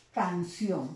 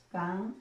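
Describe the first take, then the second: First: Said in the usual way. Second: "Canción" split in two, with a long pause after "Can"; silabeo pausado. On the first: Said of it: "canción es una palabra bisílaba". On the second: Shown as a demonstration. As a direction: say "Canción" syllable by syllable, Can... ción. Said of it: "Se separa solamente en dos sílabas". ("Canción" dicho por sílabas, con una pausa larga: Can... ción)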